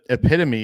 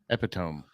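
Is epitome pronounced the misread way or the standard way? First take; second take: standard; misread. First: The word gets its standard, accepted pronunciation. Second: The word gets a nonstandard pronunciation, misread from spelling. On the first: The speaker calls it right. "epitome is the word" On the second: The speaker calls it wrong. "but I put I would say"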